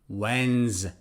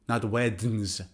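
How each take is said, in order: First: The D sound is silent. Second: The D sound is pronounced. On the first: The speaker calls it right. "D is silent" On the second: The speaker calls it wrong.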